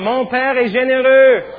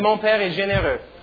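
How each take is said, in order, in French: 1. Elle est dite très fort. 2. Elle est dite à un volume ordinaire. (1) "On va le dire très fort" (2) "Tout le monde dit"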